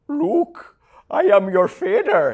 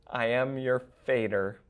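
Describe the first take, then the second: First: It is said in a Dutch accent. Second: It is said in a plain accent.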